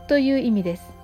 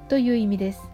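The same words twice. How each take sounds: The two takes are said the same way.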